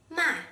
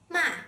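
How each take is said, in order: First: The pitch falls sharply from high. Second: The same.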